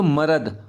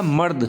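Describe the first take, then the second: First: मरद with a full vowel after र, ma-rad; two full syllables. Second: Said in the usual way. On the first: Shown as a demonstration. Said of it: "अगर हम इसे पढ़ेंगे भी". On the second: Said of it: "और हमने क्या बोला?".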